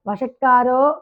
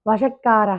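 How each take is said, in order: First: The word ends with an 'o' sound. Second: The word ends with an 'a' sound. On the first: The speaker calls it wrong. "వషట్కారో కాదు" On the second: The speaker calls it right. "వషట్కార అక్కడ ఆపాలి"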